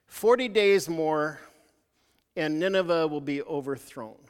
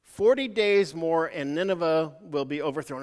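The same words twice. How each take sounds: First: Slow, weighty prophet's pronouncement; slow proclamation. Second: Slow proclamation repeated. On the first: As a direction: spell out "Forty days more" slowly, like a doom warning. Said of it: "and what he said is". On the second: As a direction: repeat the doom warning slowly and deliberately. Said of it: "That was his sermon". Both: Retold or imitated.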